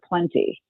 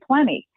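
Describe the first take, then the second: First: The T sound in the middle is pronounced. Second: The T sound in the middle is dropped. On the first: This is the older, fuller form. "instead of plenty" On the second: This is how many people say it now. "a lot of people now say plenty"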